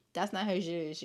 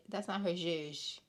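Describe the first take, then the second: First: Said in the usual way. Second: A light imitation of Portia; mock Portia, lightly put on. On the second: Podcaster mimicking Portia dismissing Shamea, lightly voiced. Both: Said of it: "In my Portia voice".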